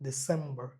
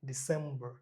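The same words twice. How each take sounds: The two takes are said the same way.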